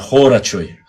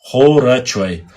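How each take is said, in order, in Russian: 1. Первый гласный звучит как округлённое 'o'. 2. Первый гласный звучит как округлённое 'o'.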